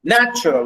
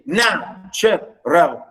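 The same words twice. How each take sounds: First: Said in the usual way. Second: "natural" slowly split into NA, tu, ral, stepping down; stressed first syllable, two falling beats in "natural"; NA... tu... ral, demonstrated slowly; high then down. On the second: Shown as a demonstration. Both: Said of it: "high and then we go down".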